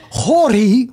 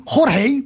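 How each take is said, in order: First: Jorge said as "HOR-ee"; anglicised name. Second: Jorge said as "HOR-hay"; Spanish-style name. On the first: Host reading viewer's name, Jorge anglicised as "HOR-ee". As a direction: read Jorge with no second h, like "Horry". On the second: Host retrying viewer's name, Jorge as "HOR-hay". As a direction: give Jorge a breathed h in the second syllable. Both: Shown as a demonstration. Tries two pronunciations of a name.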